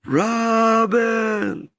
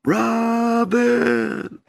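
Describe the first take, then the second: First: Shouted call. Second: High, drawn-out call of the name; distant call. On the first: Showing the Lord the call, high and shouted. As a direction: belt the name out as if across a field. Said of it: "show me". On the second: Telling the Lord how the call sounded, high and drawn out. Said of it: "it sounded like this". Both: Shown as a demonstration.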